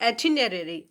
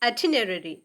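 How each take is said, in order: The two takes are said the same way.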